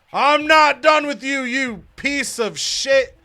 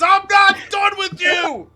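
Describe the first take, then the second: First: High, loud yell, slowing at the end; angry shout. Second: High, loud, slow angry yell; wrestler shout. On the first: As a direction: bellow it at a rival. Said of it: "And Luke Gallows says". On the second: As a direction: scream it like a heel wrestler. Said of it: "Luke Gallows comes out to the ring and says". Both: Retold or imitated.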